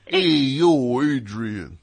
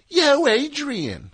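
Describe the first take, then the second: First: Put-on New York accent. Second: High, slow, stretched Philly "Yo, Adrian"; Philly accent. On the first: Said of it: "Not like". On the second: Retold or imitated. Host showing how Rocky should sound, Philly accent. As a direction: drawl it out in a thick Philly accent. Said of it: "Should be like".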